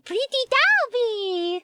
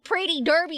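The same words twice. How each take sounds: First: It is said in an exaggerated put-on foreign accent. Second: It is said in a natural American accent. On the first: The speaker calls it wrong. "Don't say" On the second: The speaker calls it right. "like the American you are"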